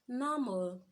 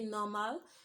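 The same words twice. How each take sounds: First: The last syllable has a reduced 'uh' vowel. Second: The last syllable has a full 'a' vowel. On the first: The speaker calls it right. "it has an invisible U sound" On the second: The speaker calls it wrong. "we shouldn't say normal"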